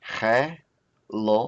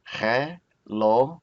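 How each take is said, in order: First: Helomot said slowly with a light breathy h. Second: Helomot said slowly with a rasped throat ch, like loch; guttural ch helomot. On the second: Teacher repeating the plural with a guttural ch, slow. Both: Shown as a demonstration.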